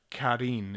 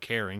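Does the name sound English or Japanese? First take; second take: Japanese; English. First: It is said as a Japanese-style name. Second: It is said as the common English name. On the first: The speaker calls it right. "It's like Karin. It's like a Japanese name" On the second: The speaker calls it wrong. "not like Karen, like, you know, Karen, compilation Karen"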